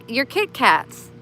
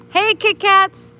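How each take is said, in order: First: Said in the usual way. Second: High, loud, slow sing-song call to a cat; high cooing call to a kitty; cutesy calling voice. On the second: Shown as a demonstration. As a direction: call the name out sweetly, much higher and louder. Calling the cat by new name.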